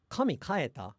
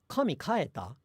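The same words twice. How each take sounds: First: Kaeta is accented on its first beat. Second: The same.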